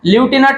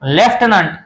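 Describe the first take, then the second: First: The word starts with a 'loo' sound. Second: The word starts with a 'left' sound. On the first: The speaker calls it wrong. "ल्युटिनंट म्हणायचं नाही" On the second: The speaker calls it right. "तर याचा उच्चार होतो लेफ्टनंट"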